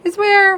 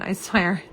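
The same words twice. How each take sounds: First: "I swear" flung out much higher and louder; exasperated outburst. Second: Said in the usual way. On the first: Real, not acted. To viewers after ending live by mistake, exasperated outburst. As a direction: blurt "swear" in real exasperation.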